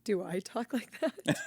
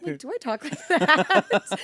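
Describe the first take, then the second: First: "Do I talk like that?" dropped into a deeper, throatier put-on voice, slow and half-laughing. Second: Higher, louder, slower mocking take on "Do I talk like that?"; kid's impression of her. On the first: Answering the kids' impression in a mock deep voice. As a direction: sink it down low and ask it with a laugh. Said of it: "I like how her voice got deep". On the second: Youth camp kid mimicking [name], high and drawn out. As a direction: parrot yourself the way a kid mimics you, up high. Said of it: "did a great rendition of me".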